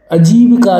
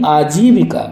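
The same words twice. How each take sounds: First: आजीविका with short first a; wrong pronunciation. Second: आजीविका with long first aa; correct pronunciation. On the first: Teacher rejecting the error, आजीविका starting short. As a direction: say आजीविका as "a-jeevika". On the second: Teacher correcting it, आजीविका starting long. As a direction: say आजीविका as "aa-jeevika". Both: Shown as a demonstration. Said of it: "आजीविका नहीं".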